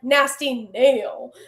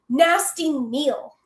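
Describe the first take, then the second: First: The name is said with a drawn-out drawl. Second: The name is said plainly, without a drawl. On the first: "there has to be a little drawl" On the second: "I can't say nasty Neil"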